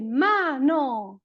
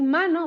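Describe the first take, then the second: First: "mano" as MA-NO, both syllables stressed and slow; a child stressing every syllable; equal stress on both syllables. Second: Said in the usual way. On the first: Shown as a demonstration. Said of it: "pero no es mano". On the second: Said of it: "en vez de decir mano".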